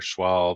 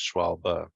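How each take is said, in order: First: The word ends on the b, with no vowel. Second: The word ends with a short 'uh' vowel. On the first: The speaker calls it wrong. "So it's not Schwalbe or Schwalb" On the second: The speaker calls it right. "the E at the end is a kind of a uh sound"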